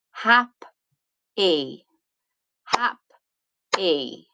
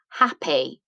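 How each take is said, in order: First: "Hap-e" broken into two clear beats, hap and e; split into syllables. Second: Said in the usual way. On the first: Shown as a demonstration. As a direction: say "hap-e" slowly, one syllable at a time. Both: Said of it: "this word splits into two".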